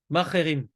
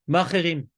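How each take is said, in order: The two takes are said the same way.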